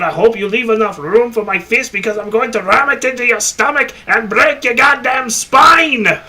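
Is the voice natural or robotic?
natural. It is said in a natural voice.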